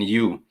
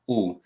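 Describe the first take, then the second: First: The letter is said like 'you'. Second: The letter is said like 'oo'. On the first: It is the English letter name. "the letters in the English alphabet" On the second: It is the Swahili vowel sound. "we simply uh, read them as"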